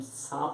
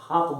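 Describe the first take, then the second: First: The word begins with an s sound. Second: The word begins with an h sound. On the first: "हम सांप नहीं बोलते हैं" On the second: "उसको बोलते हैं हाप बोलते हैं"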